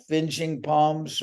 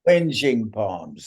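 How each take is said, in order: First: Finging palms, said with an f sound: FIN-jing; fumbling the term as Finging palms; wrong word, finging. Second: Whinging palms, a w sound, WIN-jing, said slowly; landing the remembered term: Whinging palms, drawn out; right word, slow. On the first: [name] struggling to recall the Kiwi word, wrong f sound. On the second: [name] recalls the Kiwi word, slow and sure. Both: Real, not acted. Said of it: "that's the word".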